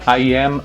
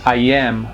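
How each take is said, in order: Both takes have the same delivery.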